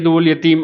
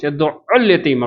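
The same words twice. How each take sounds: First: The 'ayn consonant is said short and single. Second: The 'ayn consonant is held long and doubled. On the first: Someone feeds orphans. The speaker calls it wrong. "ஷத்து இல்லாம வேகமா ஓடுறேங்கிற பேர்ல" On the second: Someone drives orphans away. The speaker calls it right. "ஷத்து குடுத்து, ஐன double count குடுத்து ஓதணும்"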